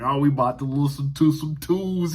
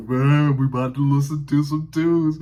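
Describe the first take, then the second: First: Put-on big man's voice, raised and projected; first go at the teacher's deep voice; imitating deep-voiced teacher. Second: Booming teacher impression, loud and pushed; hammed-up deep voice, louder and fuller; Mister Blackwell's deep voice. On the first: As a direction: imitate a heavyset art teacher announcing music. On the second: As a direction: boom it out like a big, deep-voiced man. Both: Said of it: "He had that deep voice".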